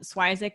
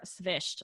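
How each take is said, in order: First: The name ends with a hard k sound. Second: The name ends with a soft ch sound. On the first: This is the easy version given to everyone. "Swizik is just what we tell everybody" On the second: This is closer to the family's Ukrainian background. "it's more svished. So a very soft ch sound at the end"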